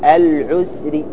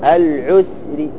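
No difference in how they are said.

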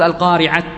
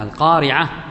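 First: The word ends with a t sound. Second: The word ends with an h sound. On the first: The speaker calls it wrong. "لا تقول القارعة" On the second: The speaker calls it right. "لا، القارعة"

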